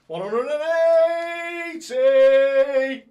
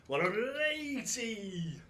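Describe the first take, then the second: First: Very slow, very loud, high sung-out call; his signature maximum call; his own darts caller call. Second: Higher, slower caller call; darts caller call. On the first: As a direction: hold every word, roaring like a stage MC. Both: Acted. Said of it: "I could just do it my way".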